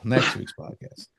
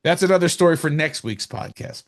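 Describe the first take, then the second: First: Hushed echo of the words under the breath; whispered aside. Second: Said in the usual way. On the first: Shown as a demonstration. Cohost whispering a repeated joke to Paul, hushed aside. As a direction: whisper the podcast line again like a private joke to yourself.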